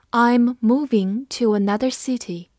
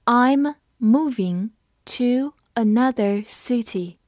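First: Said in the usual way. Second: I'm moving to another city said slowly, word by word; slow reading. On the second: Shown as a demonstration. Teacher slowly reading the example sentence. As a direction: read it slowly for learners. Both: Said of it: "我们慢读一遍".

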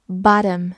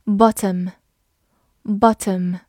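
First: "bottom" with an open "ah" and a tapped t, like "bah-dum"; alternative American pronunciation. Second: "Bottom" with a crisp t in the middle; British pronunciation. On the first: Teacher offers learners another reading, "bottom" as "bah-dum". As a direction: say "bottom" with the t softened to a quick d. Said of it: "或者可以读作". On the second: Teacher models the word for learners, "Bottom" with a clear t. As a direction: say "Bottom" British-style, sounding the t. First take before alternative reading. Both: Shown as a demonstration.

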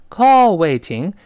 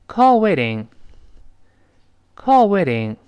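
First: Slow loud model reading. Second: Quick flapped waiting; fast with flapped t. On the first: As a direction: Call waiting spelled out slowly and loudly. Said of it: "读慢了呢，是这么读的". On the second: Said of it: "但你读快了之后". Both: Shown as a demonstration.

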